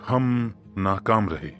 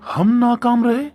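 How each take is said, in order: First: It sounds astonished, with heavy stress on हम. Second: It sounds wondering and surprised. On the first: "आश्चर्य को दर्शाने के लहजे के साथ हम पर विशेष जोर देते हुए" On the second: "इसके बाद अचरज जताते हुए"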